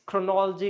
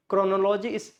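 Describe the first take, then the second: First: "chronology" stressed chro-NOL-ogy; correct stress. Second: "chronology" as chrono-LO-ji, full o sounds; wrong pronunciation. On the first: Teacher correcting learners, "chronology" stressed chro-NOL-ogy. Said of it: "chronology is chronology". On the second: Teacher showing the mistake, "chronology" as chrono-LO-ji. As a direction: say "chronology" like chrono plus logy. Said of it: "sorry, chronology is chronology". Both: Shown as a demonstration.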